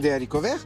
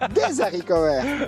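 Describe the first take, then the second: First: Des and haricots are said without a linking z. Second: Des and haricots are joined by a linking z.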